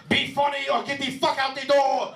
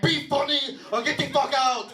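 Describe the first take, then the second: First: High-pitched yelled threat in a mock Armenian accent. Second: High mock Armenian-lady yell; little lady club owner. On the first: Imagined club owner threatening a comic, Armenian-accented yell. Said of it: "this Armenian guy wearing". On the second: Little Armenian lady threatening the comic, high accented yell.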